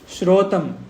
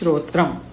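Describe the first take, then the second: First: No r sound follows the t. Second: An r sound follows the t. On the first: The speaker calls it wrong. "Many people they miss this ra, they forget this ra, and they say shrotam" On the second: The speaker calls it right. "This is shrotram"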